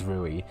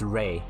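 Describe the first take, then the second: First: The name has a Japanese pronunciation, like roo-ee. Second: The name has a Chinese pronunciation, like ray. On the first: "Do you want like Japanese pronunciation?" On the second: "You want like Chinese pronunciations?"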